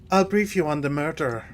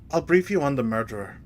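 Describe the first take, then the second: The two takes are said the same way.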